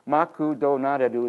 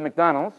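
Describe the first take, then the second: First: It is said with Japanese syllables and vowels. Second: It is said as the English word.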